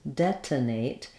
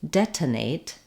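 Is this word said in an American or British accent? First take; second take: British; British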